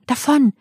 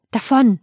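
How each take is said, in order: First: Higher still, more insistent "davon!"; rising urgent call. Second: Higher, pressing call; urgent call. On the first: Rama repeats his order to the charioteer, more insistent. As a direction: press harder on "davon!". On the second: Rama urges charioteer to leave quickly, urgent call. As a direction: urge the driver on. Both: Acted. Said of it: "rief Rama".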